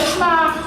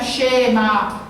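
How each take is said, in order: First: The vowel is swallowed; sh runs into m. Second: A short e is heard between sh and m. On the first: "eles engolem, virou Shema" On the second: "o correto é falar Shema, um E, um e curto"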